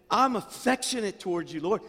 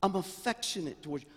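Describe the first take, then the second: First: Pushed up louder and higher; the heartfelt, raised take; louder, more heartfelt. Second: Said in the usual way. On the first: Shown as a demonstration. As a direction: say it again with more feeling.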